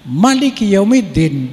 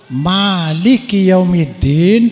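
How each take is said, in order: First: The first vowel of Malik is said short. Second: The first vowel of Malik is held long. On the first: Ruler of the Day of Judgement. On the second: Owner of the Day of Judgement.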